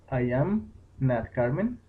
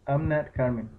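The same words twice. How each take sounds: First: "I am" said as two separate words, "am" fully voiced; slow, careful "I am" as two words; full form I am. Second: "I'm" run together into one syllable "am"; "I'm" contracted, one short syllable. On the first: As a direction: spell out "I am not" without contracting. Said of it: "Este se pronuncia "I am". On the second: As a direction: squeeze "I'm" into a single quick beat. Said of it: "y este se pronuncia "am". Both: Shown as a demonstration.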